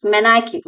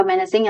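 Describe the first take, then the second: First: Menacing said as "menaking", with a hard k sound; mispronounced word. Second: Menacing said as "men-a-sing", with a soft s sound; corrected pronunciation. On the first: Tutor reading a vocabulary list, first menacing said as "menaking". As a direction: read menacing wrongly as "men-a-king". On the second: Tutor apologising and giving the right menacing, "men-a-sing". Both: Shown as a demonstration. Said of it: "ഇതിന്റെ pronouncing എന്ന് പറയുന്നത് menacing എന്നാണ് ട്ടോ".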